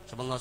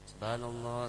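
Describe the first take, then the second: First: It is said quickly and slurred. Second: It is said slowly and carefully.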